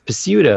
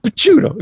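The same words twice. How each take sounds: First: The name is said with an anglicized pronunciation. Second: The name is said with an Italian pronunciation. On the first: The speaker calls it wrong. "people like having a family name and they say, oh, no, it's it's Picciuto" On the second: The speaker calls it right. "no, no, no, no, it's pronounced Picciuto"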